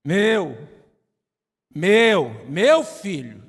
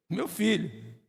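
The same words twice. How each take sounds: First: Louder, insistent "Meu. Meu. Meu filho." said as a father's claim; possessive shout. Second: Said in the usual way. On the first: Acted. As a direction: bark "Meu" like a protective dad.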